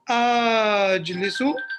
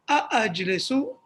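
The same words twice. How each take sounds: First: One lengthened vowel starts the word. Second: Two separate glottal stops start the word. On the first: The speaker calls it wrong. "He doesn't say, ... No, he doesn't say that" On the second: The speaker calls it right. "He says"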